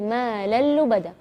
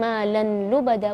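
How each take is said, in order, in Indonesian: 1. Bunyi n menyatu penuh ke l yang ganda. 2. Ada bunyi n yang jelas sebelum l. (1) "tapi malal lubada ... tanpa gunnah" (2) "bukan malan lubada"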